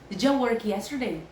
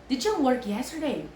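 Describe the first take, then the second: The two takes are said the same way.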